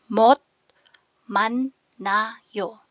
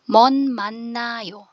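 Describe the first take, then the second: First: The first syllable ends with a t sound. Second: The first syllable ends with an n sound. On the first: "pag binasa mo siya per syllable"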